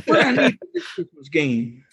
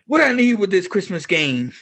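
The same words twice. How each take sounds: First: Laughing through a mock street punk line; street punk impression. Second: Higher, hammed-up street punk sneer; street punk impression. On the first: Retelling the punk's line to co-hosts with a laugh. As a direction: repeat the punk line, cracking up. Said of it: "so stereotypical street punk". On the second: Punk Breeze brushing off Sam in a mock street punk voice. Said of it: "he says".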